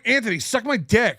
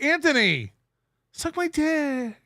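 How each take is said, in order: First: It is said harshly and angrily. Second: It is said gently and compassionately.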